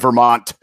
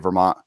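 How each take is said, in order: First: The T sound is clearly pronounced. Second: The T sound is dropped. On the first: This is the standard pronunciation. "it's supposed to be Vermont" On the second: This is how locals say it. "we just say Vermont"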